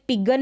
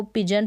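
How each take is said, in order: First: पिगन, g as in go; wrong hard-g reading. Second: पिजन, g softened to j; j sound inside पिजन; correct soft g. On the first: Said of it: "अब ये पिगन नहीं है". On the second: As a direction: say पिजन with a j in the middle. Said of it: "इसको पिजन पढ़ेंगे". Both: Shown as a demonstration.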